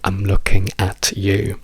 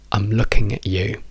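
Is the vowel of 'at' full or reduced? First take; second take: full; reduced. First: The word 'at' has a full open vowel. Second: The word 'at' has a short reduced vowel. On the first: The speaker calls it wrong. "ma io non direi mai" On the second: The speaker calls it right. "noi diciamo"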